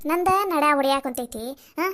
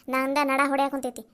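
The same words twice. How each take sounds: First: ನಂದ ನಡ ಹೊಡ್ಯಾಕ್ ಕುಂತೈತಿ thrown out loud and sharp; loud complaint. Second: Said in the usual way. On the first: Acted. Daughter-in-law loudly refusing to press his legs. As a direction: snap it at him, exasperated and loud.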